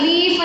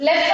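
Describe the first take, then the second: First: "ಲೀಫ್" with the ee held long; correct long E. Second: "ಲೆಫ್ಟ್" with a short e; short-vowel "ಲೆಫ್ಟ್" as the misreading; wrong reading demo. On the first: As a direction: stretch the vowel in "ಲೀಫ್". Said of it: "ಅದಕ್ಕೆ ಲೀಫ್ ಅಂತ ಓದ್ತೀವಿ". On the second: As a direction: say "ಲೆಫ್ಟ್" briefly, vowel not stretched. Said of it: "ಅನ್ನಲ್ಲ". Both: Shown as a demonstration.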